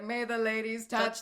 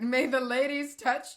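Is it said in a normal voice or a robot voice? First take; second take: robot; normal. First: It is said in a glitchy robot voice. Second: It is read in a normal voice.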